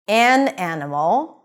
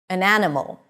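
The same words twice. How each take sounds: First: The word 'an' is stressed with a full vowel. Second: The word 'an' is unstressed with a schwa. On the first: "when you want to emphasize it" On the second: "pronounced with a schwa when unstressed"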